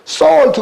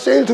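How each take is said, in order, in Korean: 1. 이 모음은 'aw'처럼 소리 납니다. 'saw'에서처럼. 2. 이 모음은 'ay'처럼 소리 납니다. 'sail'에서처럼. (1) "솔트 그래야 되는데" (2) "아니면 세일트 그럴 거란 말이에요"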